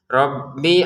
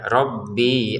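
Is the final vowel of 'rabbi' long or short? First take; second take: short; long. First: The final vowel of rabbi is kept short. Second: The final vowel of rabbi is drawn out long. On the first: The speaker calls it right. "Rabbinya pendek ya" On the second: The speaker calls it wrong. "jangan dibaca rabbi an gitu"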